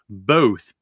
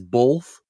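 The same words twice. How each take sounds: First: The word is said without an L sound. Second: The word is said with an L sound. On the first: The speaker calls it right. "It's both, B-O-T-H, not B-O-L-T-H" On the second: The speaker calls it wrong. "when there's not a fucking L in both"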